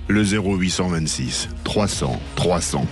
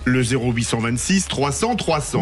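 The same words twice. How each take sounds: First: It is read in a smooth, crooning voice. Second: It is read in a plain, ordinary voice.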